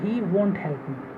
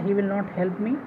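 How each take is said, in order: First: 'Will not' is shortened to one word, won't. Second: 'Will not' is said as two full words.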